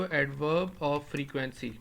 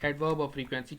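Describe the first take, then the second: First: Drawn out slowly, adverb of frequency spaced; introducing a term; slow term for notes. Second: Said in the usual way. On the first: Shown as a demonstration. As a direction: lay out adverb of frequency carefully. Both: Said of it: "ان کو آپ کیا بولتے ہو".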